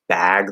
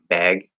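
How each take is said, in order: First: The vowel is the open 'a' of cat. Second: The vowel is raised, like the 'e' of bed. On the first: "instead of "bag,"" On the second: "they'll say, like, "beg," ... it sounds like an accent to me"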